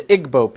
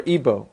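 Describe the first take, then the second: First: Igbo said IG-boh, g sounded. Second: Igbo said EE-boh, g dropped; Igbo without the g. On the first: Speaker offering one pronunciation of the people's name, Igbo with sounded g. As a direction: pronounce Igbo with an audible g before the b. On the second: Speaker offering the other pronunciation of the people's name, Igbo as EE-boh. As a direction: pronounce Igbo as EE-boh, with silent g. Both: Shown as a demonstration. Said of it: "pronounced either way".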